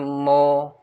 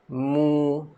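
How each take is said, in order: First: The vowel sounds like an open o. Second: The vowel sounds like u, lips pushed forward. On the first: The speaker calls it wrong. "Jangan mo, eh, bukan mo" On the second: The speaker calls it right. "Dia mu, ha, muncungkan mulut"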